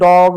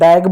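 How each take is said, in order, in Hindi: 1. स्वर 'dog' के 'o' की तरह बोला गया है। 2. स्वर 'cat' के 'a' की तरह बोला गया है। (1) "अब मैं इसी को अगर बोलूं" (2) "उसका उच्चारण ओ के रूप में नहीं किया, ऐ के रूप में कर दिया"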